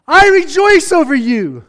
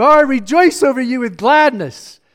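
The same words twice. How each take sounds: First: "I rejoice over you" said higher and louder, exulting; exultant. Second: Said in the usual way. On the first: Acted. Preacher voicing God rejoicing a second time, exultant and louder. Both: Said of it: "Once again, he says".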